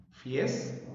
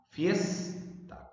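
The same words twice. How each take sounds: First: "Fiesta" split into fies, ta; "Fiesta" in two detached syllables. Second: "Fiesta" with FIES raised in pitch; FIES... ta, marking the strongest syllable of "Fiesta"; stress on FIES. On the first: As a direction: separate "Fiesta" with a gap after fies. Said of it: "Sílabas". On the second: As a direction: lift FIES high, then ta in "Fiesta". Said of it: "La sílaba fies se pronuncia con mayor intensidad". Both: Shown as a demonstration.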